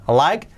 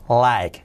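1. La vocal se desliza como la palabra 'I'. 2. La vocal es una sola vocal simple. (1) "I, like" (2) "cuidado que no es like"

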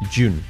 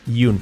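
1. La palabra empieza con un sonido j. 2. La palabra empieza con un sonido y. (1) "es jun" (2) "Y no es yun"

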